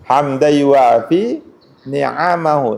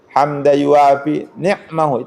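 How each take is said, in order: First: The last word has a vowel after the n. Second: The last word has no vowel after the n. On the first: The blessings are plural. The speaker calls it right. "Ni'am itu itu bentuk jamak dari nikmah" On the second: The blessing is singular. The speaker calls it wrong. "itu salah"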